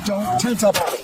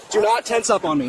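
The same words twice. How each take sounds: First: Said in the usual way. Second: "Do not" split apart, "Do" hit hard; stress on DO NOT. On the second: Real, not acted. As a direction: punch "Do" and space out "not".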